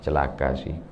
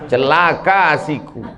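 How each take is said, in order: First: It is said gently and softly. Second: It is said bluntly and forcefully.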